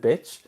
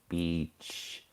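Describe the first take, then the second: First: The vowel is short, like in bit. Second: The vowel is long, like in bee. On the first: The speaker calls it wrong. "Italians I've met have pronounced it bitch" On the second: The speaker calls it right. "with a long E, not a short"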